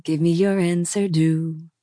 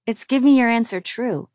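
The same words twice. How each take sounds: First: "due" sung instead of "true"; wrong lyric "due". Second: "true" said with a clear tr sound; corrected lyric "true". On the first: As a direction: sing "due" with a plain d sound. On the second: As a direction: correct "due" to "true", firmly. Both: A narrator's reading.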